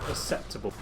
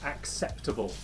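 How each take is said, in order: First: The K sound before the S is dropped. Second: The K sound before the S is pronounced. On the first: The speaker calls it wrong. "incapable of pronouncing both C's" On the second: The speaker calls it right. "You pronounce both of the C's"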